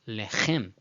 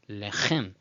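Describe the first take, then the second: First: The stress is on the last syllable. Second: The same.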